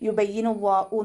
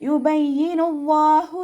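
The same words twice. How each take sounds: First: The h sounds like a glottal stop. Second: The h is a clear breathy throat sound. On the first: The speaker calls it wrong. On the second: The speaker calls it right.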